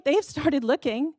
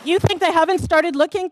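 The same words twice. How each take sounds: First: Slow, deliberate statement stressing They've; flat, certain reply; firm answer. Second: Raised, louder challenging question rising at the end; pointed rising challenge; rhetorical question. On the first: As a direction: settle it slowly and firmly. Answers own rhetorical question. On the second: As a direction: throw the question at the room. Rhetorical challenge to developer supporters. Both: Real, not acted.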